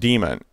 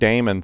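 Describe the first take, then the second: First: The word is said like the word demon. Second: The word is said like the name Damon. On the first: This is how everyone says it. The speaker calls it right. "it is pronounced demon" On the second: It was said this way as a joke. The speaker calls it wrong. "pranking everybody with that Damon thing"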